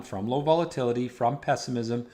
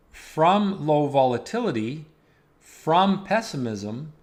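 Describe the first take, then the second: First: Said in the usual way. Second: Weighty, spaced-out warning; slow emphasis. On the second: Real, not acted. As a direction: lean on each "from" and slow right down. Emphatic, slowed-down market warning.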